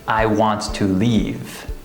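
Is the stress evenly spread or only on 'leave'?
evenly spread. Every word gets roughly equal stress. The speaker calls it wrong. "the incorrect sentence"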